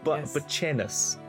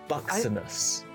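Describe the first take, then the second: First: The middle consonant is said as ch. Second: The middle consonant is said as ks.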